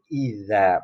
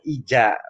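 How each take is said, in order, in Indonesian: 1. Konsonan tengahnya terdengar seperti dh. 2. Konsonan tengahnya terdengar seperti j. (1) "tapi idza" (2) "bukan ija"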